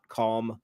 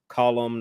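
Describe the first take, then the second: First: It sounds like the word calm. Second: It sounds like the word column. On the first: The speaker calls it wrong. "not calm" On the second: The speaker calls it right. "in Irish, you pronounce that word column"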